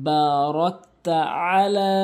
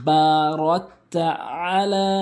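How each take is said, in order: Both takes have the same delivery.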